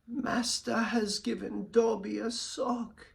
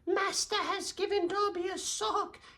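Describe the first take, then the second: First: The character voice is lower and deeper. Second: The character voice is higher pitched. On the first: The speaker calls it right. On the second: The speaker calls it wrong.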